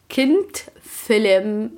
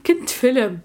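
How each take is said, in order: First: كنت فيلم stretched out very slowly; slow emphasis. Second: Said in the usual way. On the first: Shown as a demonstration. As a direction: drag out كنت فيلم word by word. (كنت فيلم ببطء شديد)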